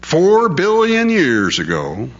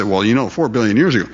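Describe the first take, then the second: First: High, slow, drawn-out recital; mock repeated slogan. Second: Quick, offhand mimicry of people; casual parroting. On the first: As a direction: stretch it out like drummed-in dogma. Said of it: "they say it over and over and over again". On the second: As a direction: toss it off as common knowledge. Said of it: "People just say".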